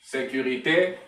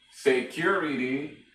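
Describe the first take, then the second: First: Sécurité said the French way, ending in é; French word. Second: Security said in English, a little slow; English word. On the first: Teacher giving the French form first, in French. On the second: Teacher giving the English equivalent. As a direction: give Security English vowels, unhurried. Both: Shown as a demonstration.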